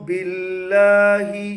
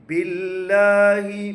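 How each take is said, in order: Both takes have the same delivery.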